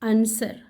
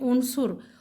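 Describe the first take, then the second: First: Both vowels are open 'a' sounds. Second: Both vowels are rounded 'u' sounds. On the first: The speaker calls it wrong. "हम इसे गलत अदा करते हैं अंसर कह के" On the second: The speaker calls it right. "आइन के ऊपर भी पेश है और स्वाद के ऊपर भी पेश है"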